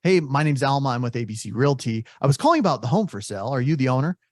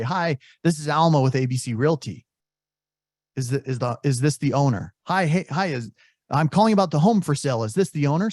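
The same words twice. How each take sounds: First: Rushed agent pitch. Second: Typical agent pitch. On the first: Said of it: "Or if you up front say". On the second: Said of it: "He only assumes you're an agent when you say". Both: Retold or imitated.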